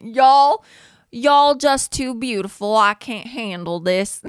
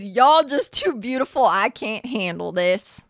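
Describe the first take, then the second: First: Put-on bolder Southern accent, higher and louder on the start; redoing Hall's Southern accent, a bit stronger; Southern accent, second try. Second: Mimicking Hall's Southern accent. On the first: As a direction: try the Southern accent again, pushing it more. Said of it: "I need to work on it". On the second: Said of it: "that was a good accent".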